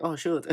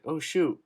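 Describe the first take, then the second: First: Put-on mom's Japanese accent, higher. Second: Put-on mom's Japanese accent; light Japanese accent on oh shoot. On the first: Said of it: "like, her Japanese accent". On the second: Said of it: "in her Japanese accent".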